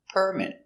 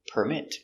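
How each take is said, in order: First: The stress is on the first syllable. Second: The stress is on the second syllable. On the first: It is a noun. "It's a noun. The stress is on the first syllable" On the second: It is a verb. "Now we have a verb. The stress is on the second syllable"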